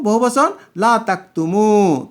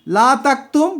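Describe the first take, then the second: First: তাকতুমু ending with a full u, slower; plural form. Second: তাকতুম ending clipped on the consonant, rising higher; singular form. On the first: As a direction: say লা তাকতুমু with the final u. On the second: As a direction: say লা তাকতুম, stopping on the m. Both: Shown as a demonstration.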